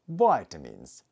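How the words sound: It is said with an American accent.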